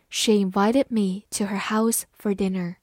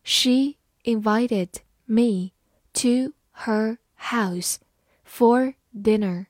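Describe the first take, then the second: First: Said in the usual way. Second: Slow and spaced, phrase by phrase; slow, careful demo read. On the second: Shown as a demonstration. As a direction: read it slowly for the class to follow. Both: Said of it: "好，慢慢来读。".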